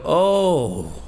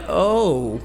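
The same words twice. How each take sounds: First: Acted appreciative "oh", drawn out; an approving, falling "oh"; pleased "oh". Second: Acted disappointed "oh", drawn out; unconvincing "oh". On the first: Husband greeting his wife's new dish, acting pleased. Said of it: "I try to sound like that". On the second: Husband failing to admire his wife's cooking, let down. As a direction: try to sound pleased and miss. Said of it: "it comes out more like".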